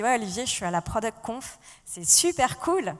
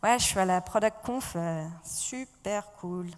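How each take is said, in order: First: It sounds genuinely enthusiastic and cheerful. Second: It sounds flat and unenthusiastic.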